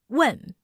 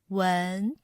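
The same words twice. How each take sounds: First: The pitch falls sharply and firmly. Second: The pitch rises from middle to high. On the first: "with a downward pitch. Sounds firm and angry" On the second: "we need to lift up the sound of the word"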